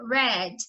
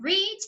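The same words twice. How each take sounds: First: The vowel is short, like 'red'. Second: The vowel is long, like 'reed'. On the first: The verb is a past participle. "aqui a gente pronuncia read, porque ele está no particípio passado" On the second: The verb is in its base form. "Ao invés de pronunciar read"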